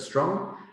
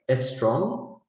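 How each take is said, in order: First: The full cluster is said with no change. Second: An extra vowel comes before the opening s.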